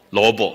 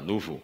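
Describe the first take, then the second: First: It is said with an accent, sounding like 'luobo'. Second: It is said in standard pronunciation, like 'nupu'.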